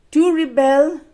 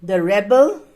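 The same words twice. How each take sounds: First: Rebel as a verb, re-BEL, pitched high; stress on second syllable. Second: Rebel as a noun, REB-el, rising at the end; stress on first syllable. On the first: Teacher pronouncing the verb for pupils, rebel stressed on BEL. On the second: Teacher pronouncing the noun for pupils, rebel stressed on REB. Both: Shown as a demonstration. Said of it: "Let's pronounce the words together".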